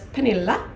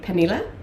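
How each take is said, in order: First: The name is said the Swedish way. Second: The name is said the Danish way.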